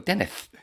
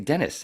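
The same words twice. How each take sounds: First: The final s is said with a lisp. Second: The final s is a plain clear s. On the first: This is how the singer actually says it on stage. "I go Dennis" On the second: This is the name's normal pronunciation. "I don't say Dennis"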